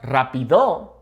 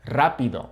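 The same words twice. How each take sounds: First: "rápido" with stress moved off the first A to later in the word; wrong syllable stressed. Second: "rápido" as RA-pi-do; stress on first A. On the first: Showing learners the mistake, mis-stressed "rápido". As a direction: misplace the stress in "rápido", away from RA. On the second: Correcting the mistake for learners, first-syllable stress in "rápido". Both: Shown as a demonstration. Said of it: "accent over that A".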